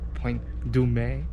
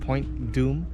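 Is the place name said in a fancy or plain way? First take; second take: fancy; plain. First: The name is said in a fancy way. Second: The name is said in a plain way.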